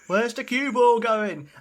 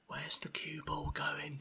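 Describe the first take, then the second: First: It is said louder and more animated. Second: It is said calmly and quietly.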